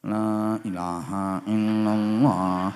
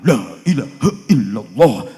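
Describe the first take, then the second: First: It is recited weakly and half-heartedly. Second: It is recited firmly and energetically. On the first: The gift from the host is small. "kalau berkatnya kecil ya" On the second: The host is rich and the gift is big. "Mantep wong, berkate gede. Yang ngundang orang kaya"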